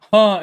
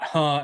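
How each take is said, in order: First: A short huh meaning that's interesting; interested huh. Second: A short huh meaning say that again; questioning huh. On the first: Telling a friend what huh means, interested huh. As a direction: say huh as if you find it interesting. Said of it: "as in, like, "Oh, that's interesting". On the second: Telling a friend what huh means, didn't-hear huh. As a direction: huh as if you didn't catch it. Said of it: "as in, you know, "I didn't hear you". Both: Shown as a demonstration.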